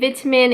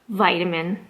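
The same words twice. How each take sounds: First: It is said with an English accent. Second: It is said with a Canadian accent. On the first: "in England, you would say" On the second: "In Canada, you would say"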